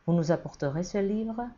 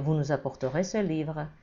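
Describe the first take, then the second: First: It is said with a rising, questioning tune. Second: It is said with a falling, commanding tune. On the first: The action is presented as doubtful. "Grâce à l'intonation interrogative" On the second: The action is imposed as a firm order. "C'est un ordre formel, catégorique"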